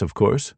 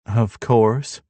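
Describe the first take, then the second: First: Said in the usual way. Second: Dry mocking echo; sarcastic. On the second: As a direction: toss it back sarcastically. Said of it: "Darby chimes sarcastically".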